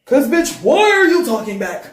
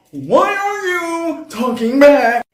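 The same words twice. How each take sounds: First: Loud, high freaked-out demand; freaking out. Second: Slow, drawn-out high yell; freaking out. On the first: Narrator confronting her talking reflection, freaking out. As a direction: snap loudly at the thing talking back. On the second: Narrator yelling at her talking reflection, freaking out. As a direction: stretch the freaked-out question into a loud wail. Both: Acted. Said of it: "Now I'm freaking the fuck out".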